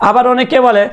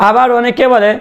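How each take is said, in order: No difference in how they are said.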